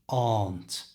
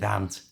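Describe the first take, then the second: First: The vowel at the start is drawn out long. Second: The vowel at the start is kept short. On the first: "some people lengthen the vowel sound at the beginning" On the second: "stick with aunt, it's easier"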